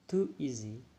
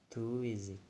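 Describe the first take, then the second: First: The two words are said separately. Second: The two words are linked smoothly together. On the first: "Too easy become" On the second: "in linking, we just pronounce too easy"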